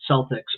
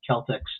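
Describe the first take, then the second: First: The word begins with a soft S sound. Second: The word begins with a hard K sound. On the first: The speaker calls it wrong. "they mispronounce it" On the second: The speaker calls it right. "it's actually should be Celtics ... the hard C there"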